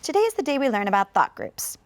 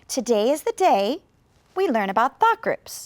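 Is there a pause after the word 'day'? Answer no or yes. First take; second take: no; yes. First: It is said straight through with no pause. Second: There is a pause after the word day. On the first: "I can read the whole thing all the way through without a pause" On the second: "Maybe you thought after the word day"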